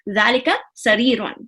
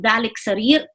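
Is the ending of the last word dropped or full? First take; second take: Full; Dropped. First: The last word ends with a full -un. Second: The last word ends bare, without -un. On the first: The speaker calls it right. "I say ... That's important" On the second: The speaker calls it wrong. "I will not say"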